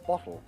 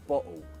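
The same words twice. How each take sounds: First: The T is crisp, tongue behind the teeth. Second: The T is a stop in the throat. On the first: It sounds very posh and upper class. "a very posh T" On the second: It can sound uneducated. "Glottal tea"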